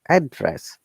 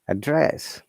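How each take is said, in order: First: The pitch moves from high to low. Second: The pitch moves from low to high. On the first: It is used as a noun. "if it is a noun, the tone is upper tone to down tone" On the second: It is used as a verb. "If it is verb, once again, the tone is from down to up"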